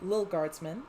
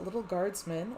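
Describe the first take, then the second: First: The t sounds in the first word are dropped. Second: The t sounds in the first word are pronounced. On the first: The speaker calls it right. "as they are not actually written into the game" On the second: The speaker calls it wrong. "I shouldn't emphasize the T's and little"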